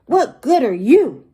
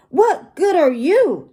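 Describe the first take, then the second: First: Louder, grumpy glowering question; glowering challenge. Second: High-pitched grumpy parrot mimicry; glowering parrot echo. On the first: Grumpy pirate confronting his new parrot, glowering challenge. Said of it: "Gus glowers at the parrot". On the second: Parrot mimicking the grumpy pirate's question, high glowering echo. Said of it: "and the parrot glowers too". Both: A narrator's reading.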